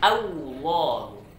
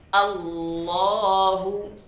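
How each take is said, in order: First: The first vowel is followed by a W sound. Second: The first vowel is a clear A sound. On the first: The speaker calls it wrong. "Jangan dibaca" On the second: The speaker calls it right. "baca A kemudian ditebalkan lamnya"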